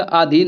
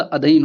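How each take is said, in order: First: "आधीन" with a long stretched first आ; wrong long आ. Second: "अधीन" with a short first अ; correct short अ. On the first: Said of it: "बड़ा आ नहीं आएगा". (गलत उच्चारण: "आधीन" लंबे आ के साथ) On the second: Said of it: "अधीन होता है छोटा". (सही उच्चारण: "अधीन" छोटे अ के साथ) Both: Shown as a demonstration.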